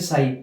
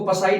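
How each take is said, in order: First: The p at the start is silent. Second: The p at the start is sounded. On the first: The speaker calls it right. "इसको बोलेंगे साई" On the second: The speaker calls it wrong. "इसको पसाई नहीं बोलेंगे"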